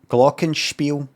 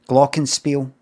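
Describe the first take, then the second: First: The s in spiel is not a plain s. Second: The s in spiel is a plain s. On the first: It sounds proper and a bit show-offy. "Have I really to say spiel? Feels a bit um, proper" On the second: It is the everyday local way. "we just pronounce that as S"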